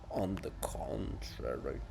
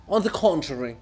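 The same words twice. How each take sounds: First: Softer, slower, lower under the breath; quiet smug mumble; low slow mutter. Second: Said in the usual way. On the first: Acted. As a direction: repeat it to yourself. Muttered repeat of retort.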